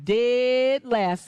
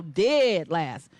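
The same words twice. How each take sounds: First: Said in the usual way. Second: Dead last in a low, heavy voice. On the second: Shown as a demonstration. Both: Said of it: "Say dead last".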